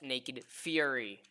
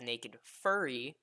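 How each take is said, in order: First: The second word sounds like 'fury'. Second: The second word sounds like 'furry'. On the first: The speaker calls it right. "So it is pronounced Naked Fury" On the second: The speaker calls it wrong. "a lot of my friends keep trying to pronounce it as Naked Furry"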